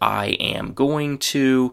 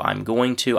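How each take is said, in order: First: Every word is said fully and separately. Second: I am is contracted, going to stays full. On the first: "the very common phrase" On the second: "with a contraction"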